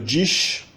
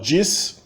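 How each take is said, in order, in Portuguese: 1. É pronunciado com sotaque carioca. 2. É pronunciado com sotaque paulistano. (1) "No Rio de Janeiro" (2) "Em São Paulo"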